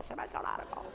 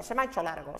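First: "se me ha hecho largo" whispered, much softer; "se me ha hecho largo" breathed as a confided whisper; whispered aside. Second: Said in the usual way. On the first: Shown as a demonstration. Repeats the line under breath.

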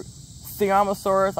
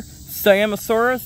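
First: "Siamosaurus" as "see-AH-mo-saurus"; alternative pronunciation. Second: "Siamosaurus" begun as "sigh-AM", like "say-AM-o-saurus"; alternative pronunciation. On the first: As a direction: say "Siamosaurus" slowly with an ee first syllable and open AH. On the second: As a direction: say "Siamosaurus" slowly with a long-i first syllable and flat A. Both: Shown as a demonstration. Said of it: "I don't know how you pronounce it".

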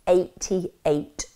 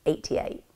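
First: Said in the usual way. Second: "Eighty-eight" breathed out softly; whispered for emphasis. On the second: Real, not acted. Narrator stunned at the charge count, whispered. Repeats the number.

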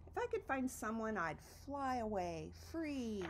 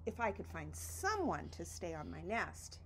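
First: Dreamy echo. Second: Said in the usual way. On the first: Acted. Repeated wish, dreamy echo.

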